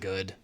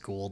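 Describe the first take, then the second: First: The vowel sounds like the oo in wood. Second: The vowel sounds like the long o in go. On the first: "as in you just, like, you know, wood" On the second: "like, you know, snake creatures from Stargate"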